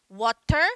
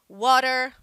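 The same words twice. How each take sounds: First: The middle T is clearly pronounced. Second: The middle T sounds almost like an R. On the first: "o inglês britânico eles vão pronunciar água, water... esse T ele é pronunciado" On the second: "no inglês americano, esse T... ele quase vira um R"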